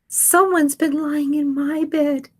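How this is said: It is said in a high squeak.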